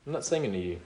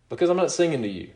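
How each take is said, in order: First: Quieter and lower, let it settle; a hushed, lower restatement; soft repeat. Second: Fast, firm declaration; emphatic. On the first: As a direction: drop the voice for the echo. Soft repeat of the previous line. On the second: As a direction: press the point home quickly. Preacher insists, then repeats softly. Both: Real, not acted.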